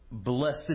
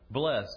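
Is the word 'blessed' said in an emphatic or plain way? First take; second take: emphatic; plain. First: The word is said in a drawn-out, emphatic form. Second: The word is said in a short, plain form. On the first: "I love that the emphatic, blessed is the man" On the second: "And then sometimes you are blessed"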